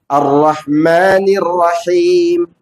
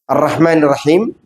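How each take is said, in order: First: The vowel in the last word is long. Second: The vowel in the last word is short. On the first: The speaker calls it right. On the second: The speaker calls it wrong. "tanpa dipanjangkan himnya"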